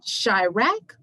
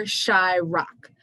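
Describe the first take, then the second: First: Chirac said "shy-rack"; first pronunciation of Chirac. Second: Chirac said "shy-rock", drawn out; alternative pronunciation of Chirac. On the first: Poet quizzing laughing frat boys, Chirac pronounced "shy-rack". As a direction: rhyme the end of Chirac with "back". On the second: Poet quizzing frat boys, Chirac pronounced "shy-rock". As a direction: rhyme the end of Chirac with "rock", slowly. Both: Acted. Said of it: "Do you pronounce it".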